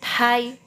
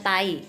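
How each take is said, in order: First: The t is said with a puff of breath. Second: The t is said without a puff of breath. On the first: The speaker calls it right. "tapi Thai ya" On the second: The speaker calls it wrong. "ini bukan dibacanya tai ya"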